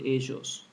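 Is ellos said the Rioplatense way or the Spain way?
Rioplatense. It uses the Uruguayan and Argentine pronunciation. "In my country, Uruguay, as well as in Argentina, we pronounce it ellos"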